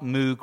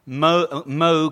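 First: The vowel is like the one in fugue. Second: The vowel is like the one in rogue. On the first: The speaker calls it wrong. "not Moog rhymes with fugue" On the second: The speaker calls it right. "Moog rhymes with rogue"

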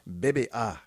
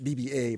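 First: The letters are named with French letter sounds. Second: The letters are named with English letter sounds. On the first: This is how the group itself says it. "but they pronounce it BBA" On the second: This is how local listeners would say it. "I think we would pronounce it BBA"

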